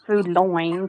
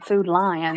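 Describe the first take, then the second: First: The second word sounds like 'loin'. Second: The second word sounds like 'line'. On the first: The speaker calls it wrong. "not Food Loin" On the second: The speaker calls it right. "doing it the right way"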